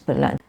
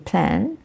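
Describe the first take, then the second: First: A short er vowel separates the p and l. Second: The p and l are joined with no vowel. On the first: The speaker calls it wrong. "so it becomes pelan" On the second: The speaker calls it right. "it should be plan"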